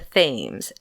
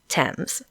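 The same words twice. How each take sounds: First: It is said as spelled, starting with 'th'. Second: It is said as 'temz', starting with 't'. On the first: This is how someone who learned it by reading would say it. The speaker calls it wrong. "looks like it should be the Thames, T H A M E S" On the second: This is how the name is actually said. The speaker calls it right. "it's pronounced Thames"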